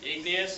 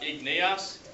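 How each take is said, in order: First: The syllables flow together smoothly without breaks. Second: The syllables are said separately and choppily. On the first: The speaker calls it right. "it's just igneous, so we flow through it" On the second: The speaker calls it wrong. "It's not igneous"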